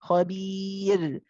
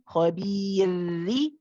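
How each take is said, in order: First: The word stops sharply on the r sound. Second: The word ends with a short i vowel. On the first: "just saying khabir and just stopping halfway" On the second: "then say the kasra"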